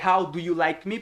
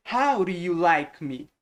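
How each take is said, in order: First: "How do you like me?" with "do" said as written, with a D; clear D in "do". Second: "How do you like me?" slowly, as "how-ru you like me"; flapped R for "do". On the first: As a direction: keep the D sound in "How do you". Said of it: "ao invés de". ("How do you like me?" com D normal no "do") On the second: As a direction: soften the D of "do" into a tapped R. ("How do you like me?" devagar, com som de R no "do") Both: Shown as a demonstration.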